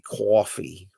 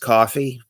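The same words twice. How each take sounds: First: It is said in a Boston accent. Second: It is said in a standard American accent. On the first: "in Boston they say coffee" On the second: "a normal person says coffee"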